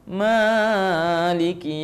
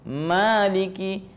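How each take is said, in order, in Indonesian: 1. Vokal panjang dibaca lebih dari dua ketukan. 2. Vokal panjang dibaca dua ketukan. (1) "jangan maliki yaumiddin" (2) "mad tabi'i, dua harakat"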